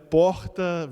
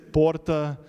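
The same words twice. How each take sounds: First: The R has a Rio de Janeiro sound. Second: The R sounds like a Spanish-style R. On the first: "the whole carioca" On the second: "that São Paulo Spanish flavor"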